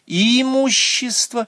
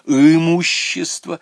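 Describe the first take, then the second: First: The first vowel is a front 'ee' sound. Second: The first vowel is a central 'ы' sound. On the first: "вместо слова «имущество»" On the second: "он говорит"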